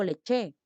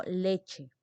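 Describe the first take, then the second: First: "leche" stressed on the last syllable, le-CHE; mis-stressed "leche", ending strong as le-CHÉ; wrong final stress. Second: "leche" stressed on the first syllable, LE-che; "leche" as LE-che, falling at the end; correct first-syllable stress. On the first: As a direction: throw the weight onto CHE in "leche". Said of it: "Yo no digo leche". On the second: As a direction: put the weight on LE in "leche", let CHE fall. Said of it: "digo leche". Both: Shown as a demonstration.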